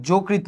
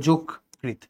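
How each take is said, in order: First: "যোগকৃত" run together as jo-krit; wrong unbroken reading. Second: "যোগকৃত" as jok, pause, krit; split at cluster. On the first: Teacher rejecting a reading, "যোগকৃত" run together. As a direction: say "যোগকৃত" without a stop after jok. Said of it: "এটা হবে যোগকৃত". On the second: Teacher correcting for students, "যোগকৃত" split jok - krit. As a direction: say "যোগকৃত" stopping after jok. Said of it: "যোগকৃত না". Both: Shown as a demonstration.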